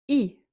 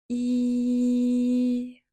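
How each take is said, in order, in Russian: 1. Гласный звук произносится коротко. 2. Гласный звук произносится долго, растянуто. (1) "мы произносим букву «и»" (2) "мы тянем «и»"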